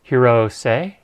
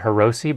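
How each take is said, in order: First: The name ends with a 'say' sound. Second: The name ends with a 'shee' sound. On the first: The speaker calls it right. "it's Hirose is how you say it" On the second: The speaker calls it wrong. "I used to call it Hiroshi"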